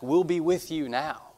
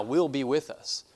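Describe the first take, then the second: First: "Will" leaned on, slower and higher; emphatic stress. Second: Said in the usual way. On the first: Shown as a demonstration. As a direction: press hard on "Will", drawn out. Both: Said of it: "In the Greek, it's very emphatic".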